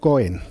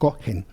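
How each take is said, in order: First: The middle consonant is silent, no breathy h. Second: A light breathy h is heard in the middle. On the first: This is the modern pronunciation. The speaker calls it wrong. "En esa lengua profanada que es el hebreo moderno se diría Cohen" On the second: This is the biblical pronunciation. The speaker calls it right. "la manera correcta de decir eso... Con una, un leve sonido de H aspirada"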